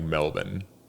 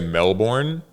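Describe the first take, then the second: First: It is said with a reduced 'bon' ending. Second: It is said with the common American pronunciation. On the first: The speaker calls it right. "it's like M E L B O N" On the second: The speaker calls it wrong. "We say Melbourne"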